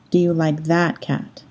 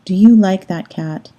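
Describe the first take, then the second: First: "Do you like that cat?" softer, with "Do" leading, ending in a fall; "Do" stressed, the tune falling away. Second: "Do you like that cat?" with "you" stressed; "you" pushed forward as the key word. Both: Shown as a demonstration. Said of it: "they sound different".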